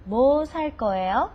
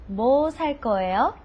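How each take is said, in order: The two takes are said the same way.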